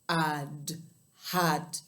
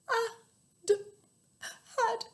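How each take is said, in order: First: It is said in a very deep, low voice. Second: It is said in a sad, gloomy voice. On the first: "in a really low voice" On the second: "in a really sad voice"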